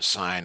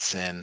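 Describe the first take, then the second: First: The vowel is long, rhyming with fine. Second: The vowel is short, rhyming with pin. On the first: The speaker calls it right. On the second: The speaker calls it wrong. "not sin"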